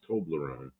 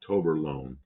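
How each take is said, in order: First: The second syllable is 'ble', with L after B. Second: The second syllable is 'ber', with L moved later. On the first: The speaker calls it right. "It's Toblerone" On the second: The speaker calls it wrong. "not Toberlone. I pronounced it wrong"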